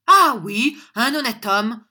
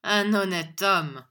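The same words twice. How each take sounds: First: Loud, high-pitched affirmation; bold, raised-voice comeback; emphatic retort. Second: Slow, loud scornful echo; loud, drawn-out sneer; sneering cry. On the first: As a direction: fling the words back proudly. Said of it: "répliqua John". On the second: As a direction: drag out the words in derision. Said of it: "cria Squeers en ricanant". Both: A narrator's reading.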